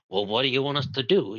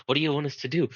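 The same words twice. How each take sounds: First: Put-on a quick, accidental Italian accent on "Well, what do you want us to do?"; a light, unplanned Italian-accent impression. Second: Said in the usual way. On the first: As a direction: toss the line off in a sudden mock Italian accent. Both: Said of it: "why did I do an Italian accent?".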